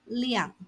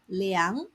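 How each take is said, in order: First: The syllable is said with a falling tone. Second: The syllable is said with a rising tone. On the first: It means quantity or amount. "fourth tone" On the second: It means to measure. "second tone"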